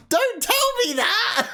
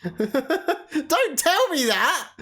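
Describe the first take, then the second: First: Much higher, slow squealing protest; high laughing shriek at chat. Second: Slow, laughing yell of protest; laughing slow protest at chat. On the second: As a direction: drag it out, laughing, begging no spoilers. Reacting to spoiler in chat. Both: Real, not acted.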